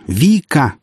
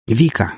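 First: Higher, more insistent shout of the name. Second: Restrained sharp call, near normal pitch; first call. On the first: Pilot to hysterical woman on phone, insistent shout. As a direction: shout to cut through her hysteria. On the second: Pilot to hysterical woman on phone, restrained shout. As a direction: call her name to get her attention. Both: A narrator's reading. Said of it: "закричал я на женщину".

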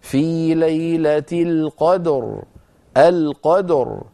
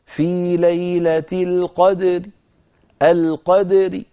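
First: Slow chant, القدر ending on a heavy, vowelless r; sukun, heavy ra. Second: Slow chant, القدر ending in a weak, thin ri; rawm, light ra. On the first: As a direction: stop dead on a full heavy ر in القدر. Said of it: "إذن مفخمة". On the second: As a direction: stop on القدر with a faint i after the light ر. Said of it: "براء صوتها ضعيف ومرققة". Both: Shown as a demonstration.

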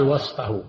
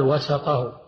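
First: وسطه with a vowelless s, was-tuh; sukun on sin. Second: وسطه with an a after the s, wa-sa-tuh; fatha on sin. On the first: Teacher explaining the word for an undivided thing, وسطه said was-tuh. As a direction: close the s straight onto the t in وسطه. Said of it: "وسطها بسكون السين". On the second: Teacher explaining the word for things with parts, وسطه said wa-sa-tuh. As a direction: open the s of وسطه into a short a. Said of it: "بالفتح". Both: Shown as a demonstration.

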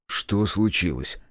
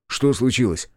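First: Slow, controlled asking; measured question at usual pitch; steady repeated question. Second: Said in the usual way. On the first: A narrator's reading. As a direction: ask it slowly and evenly. Question repeated after the outburst.

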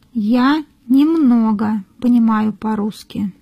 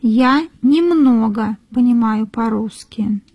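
No difference in how they are said.

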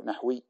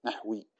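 First: نحوي with a still ح, nahwi; نحوي said nah-wi, short and closed; correct nahwi. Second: نحوي said softly with an added a, nahawi; نحوي as na-ha-wi, quiet and falling; wrong nahawi. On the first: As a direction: say نحوي as nahwi, no vowel after ح. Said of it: "فلا نقول نحوي". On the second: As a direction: mimic the common mistake نحوي as nahawi. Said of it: "فلا نقول نحوي مثلًا كما يقول بعض الناس". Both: Shown as a demonstration.

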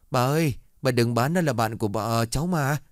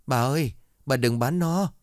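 First: A child pleading through mock tears; crying plea. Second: High, lightly voiced whimpering plea; a child pleading on the verge of tears, mildly acted. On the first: Kneeling child begs grandma, higher, crying plea. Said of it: "khóc lóc cầu xin". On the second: Child begs grandma not to sell the dog, whimpering. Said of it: "mếu máo".

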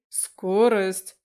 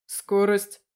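First: "Скорость" repeated much louder, falling at the end; insistent repeat. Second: "Скорость" as a loud one-word question; first asking. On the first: Koval cuts into the excuses, insistently repeating "Скорость". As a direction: press "Скорость" hard, as a demand. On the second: Koval questions the driver by phone, loud on "Скорость". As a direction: fire "Скорость" out loudly as a question. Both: A narrator's reading. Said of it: "повторил Коваль".

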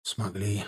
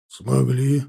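First: «Смогли» admitted low and soft; soft, lowered answer «Смогли»; subdued confirmation. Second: «Смогли» asked as a firm, challenging question; raised questioning tune on «Смогли»; pointed question. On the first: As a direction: concede «Смогли» quietly, as an admission. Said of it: "подтвердил, тяжело вздохнув". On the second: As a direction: demand an answer with «Смогли». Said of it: "спросил Делицын". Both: A narrator's reading.

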